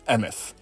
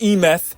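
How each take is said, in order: First: It begins with a short 'em' sound. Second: It begins with the letter name E. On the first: The speaker calls it right. "It's Emeth" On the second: The speaker calls it wrong. "Not E-meth"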